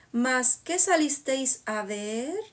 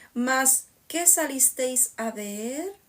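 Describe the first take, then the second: The two takes are said the same way.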